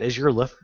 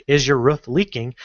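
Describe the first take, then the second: First: "loof-" for roof, starting with L, broken off; tongue slip. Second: Said in the usual way. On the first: Real, not acted. Tutor reading the ad aloud, tongue slip on "loof-". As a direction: trip on the first sound, L for R in "loof-". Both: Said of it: "I can't even say it".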